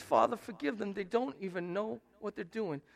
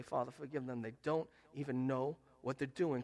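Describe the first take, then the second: First: Said in the usual way. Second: "forgive" said lower and softer; gentle modelled prayer. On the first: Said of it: "look at him and say". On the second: Shown as a demonstration. Preacher shows how to forgive a hurtful relative, soft and low. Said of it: "You need to look at him and say".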